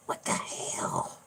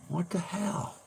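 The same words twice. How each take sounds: First: Slow, low, whispery puppet voice; Peanut impression. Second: Very high, soft puppet squeak; Peanut impression. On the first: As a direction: drag it out low and hushed. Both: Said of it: "do Peanut's voice".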